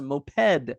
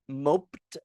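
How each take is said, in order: First: "moped" as MO-ped, with the e sounded; two syllables. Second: "moped" as "mopt", with silent e; one syllable. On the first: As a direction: say "moped" as MO-PED, both vowels full. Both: Shown as a demonstration. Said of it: "are you gonna pronounce it".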